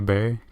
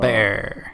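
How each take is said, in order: First: The word has a short 'ur' vowel, like 'burr'. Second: The word sounds like 'bear' with a strong R. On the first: "is it canonically burr?" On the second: "you come down really hard on the R, so it's like"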